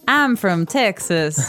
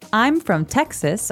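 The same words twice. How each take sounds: First: It is said with a Southern twang. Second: It is said in a plain, neutral accent.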